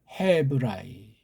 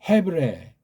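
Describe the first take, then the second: First: The ending is said as two vowels, ah-ee. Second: The ending is said as one vowel, eh.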